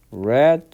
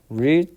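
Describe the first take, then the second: First: "read" said with a short e, like "red"; past-tense read. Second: "read" said with a long ee, like "reed"; present-tense read. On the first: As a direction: say "read" to rhyme with "bed". ("read"를 과거형 "레드"로 발음) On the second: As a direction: say "read" to rhyme with "need". ("read"를 현재형 "리드"로 발음) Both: Shown as a demonstration. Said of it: "발음만 바뀝니다".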